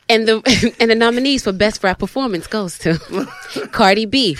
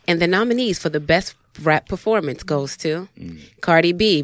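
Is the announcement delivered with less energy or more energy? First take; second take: more energy; less energy. First: The announcement is delivered with more energy. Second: The announcement is delivered with less energy. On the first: The speaker calls it right. "let me give more energy" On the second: The speaker calls it wrong. "you gotta say it with more confidence"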